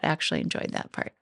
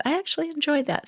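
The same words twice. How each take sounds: First: "Actually enjoyed that part" in a soft whisper; whispered aside. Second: Much higher, quick "I actually enjoyed that"; pleased discovery. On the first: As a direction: tell it to yourself in a private whisper. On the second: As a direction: sound happily surprised at yourself. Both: Pretend. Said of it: "Start with that".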